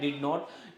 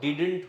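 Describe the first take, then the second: First: It is said as two full words. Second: It is shortened into one word. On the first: "अगला शब्द क्या है आपका" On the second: "डिड नॉट का short form क्या होता है"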